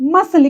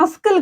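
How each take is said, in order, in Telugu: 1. s తర్వాత 'k' శబ్దం ఉండదు. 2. s తర్వాత 'k' శబ్దం ఉంటుంది. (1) "ఇక్కడ సి లేదన్నట్టుగా మనం పలకాలి" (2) "ఇది మస్కిల్ కాదు"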